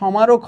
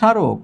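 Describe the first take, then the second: First: A full m sound follows the first consonant. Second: No m sound; the first syllable is nasalized. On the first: The speaker calls it wrong. "তাহলে এখানে সমারক হওয়ার কথা" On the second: The speaker calls it right. "ময়ের উচ্চারণ নাই ... কিন্তু আমরা আনুনাসিক দিয়েছি"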